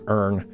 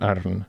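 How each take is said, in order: First: It is said in an American accent without a rolled R. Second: It is said in a Scottish accent with a rolled R. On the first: "That's American as fuck" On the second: "Can I give a Scottish"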